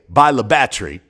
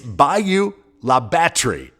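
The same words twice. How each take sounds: First: The name is pronounced in a shorter, casual form. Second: The name is pronounced in full, every syllable clear. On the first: This is how people who live there say it. "the locals often just say" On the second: This is the standard way to say the name. "It's Bayou La Batre"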